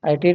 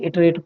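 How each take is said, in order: First: The word begins with an 'eye' vowel sound. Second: The word begins with a short 'ih' vowel sound. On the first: "कुछ लोग इसको आइटरेट बोलते हैं" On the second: "कुछ लोग इसको इटरेट बोलते हैं"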